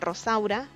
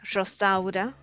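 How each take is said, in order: First: The first R is a strong rolled sound. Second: The first R sounds almost like sh. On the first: "it's a strong R" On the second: "almost like a sh sound"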